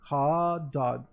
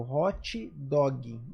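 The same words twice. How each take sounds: First: The words end on bare consonants, no vowels. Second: Extra vowels are added after the final consonants. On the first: The speaker calls it right. "Em inglês não tem" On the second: The speaker calls it wrong. "põe essas vogais no final"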